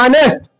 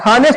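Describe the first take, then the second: First: The word starts directly with a vowel sound. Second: The word starts with an audible h sound. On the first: The speaker calls it right. "इसको ऑनेस्ट पढ़ते हैं" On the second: The speaker calls it wrong. "इसको हम हानेस्ट नहीं पढ़ते"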